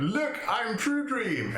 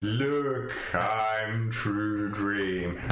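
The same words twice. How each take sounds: First: High, slow dreamy proclamation; True Dream voice. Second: Slow, drawn-out dreamy claim; True Dream voice. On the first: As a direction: announce yourself as someone else, drawn out. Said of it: "like jumping out". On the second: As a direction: stretch it out like a dreamer. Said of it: "I wanna hear you say it in a True Dream voice". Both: Pretend.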